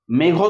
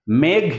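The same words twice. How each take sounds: First: "মেঘ" said as two syllables, "megho"; added final vowel. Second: "মেঘ" closed on the gh, no vowel after it; consonant-final pronunciation. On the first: Teacher showing the rejected form, "মেঘ" ending in an o sound. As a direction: add an open o after the gh of "মেঘ". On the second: Teacher showing a consonant-final word, "মেঘ" as one closed syllable. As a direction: end "মেঘ" on the bare consonant. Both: Shown as a demonstration. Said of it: "মেঘ তো নয়".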